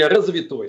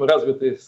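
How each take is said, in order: First: The word ends in an 'oy' sound. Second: The word ends in a short 'y' sound. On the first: This is how the leaders actually said it. The speaker calls it wrong. "они говорили развитой социализм" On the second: This is the proper form they could not say. The speaker calls it right. "развитый выговорить не могли"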